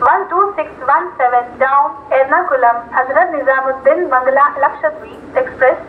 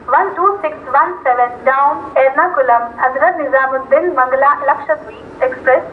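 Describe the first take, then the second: No difference in how they are said.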